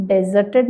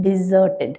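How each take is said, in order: First: ഡെസേർട്ടഡ് said with an open "de" like dessert; the wrong way, ഡെസേർട്ടഡ് with "de-" as in dessert; wrong pronunciation. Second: ഡിസേർട്ടഡ് with a short "di-" and the stress on "സേർ"; the right way, ഡിസേർട്ടഡ് starting "di-"; correct pronunciation. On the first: Teacher showing students the wrong ഡെസേർട്ടഡ്, with "de-" as in dessert. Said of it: "ഡെസേർട്ടഡ് എന്നല്ല". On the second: Teacher giving students the correct ഡിസേർട്ടഡ് with a short "di-". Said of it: "ഡെസേർട്ടഡ് എന്നല്ല, ഡിസേർട്ടഡ്". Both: Shown as a demonstration.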